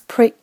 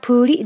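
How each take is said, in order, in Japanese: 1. pとrは混ざっていて、舌を奥に引っ込めます。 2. pとrの間に母音が入ります。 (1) "舌を最初から奥に引っ込めておいて" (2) "プーリではなくって"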